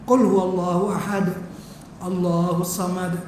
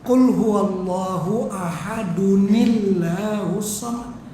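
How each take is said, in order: First: There is a pause with a breath between phrases. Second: The two phrases run together without a break. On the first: The reciter stops and breathes before going on. "Kalau berhenti kena menyawa" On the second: The reciter continues without stopping. "Kalau nak lanjut"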